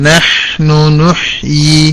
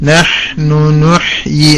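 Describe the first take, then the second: Both takes have the same delivery.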